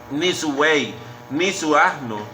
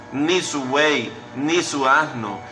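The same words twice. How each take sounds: The two takes are said the same way.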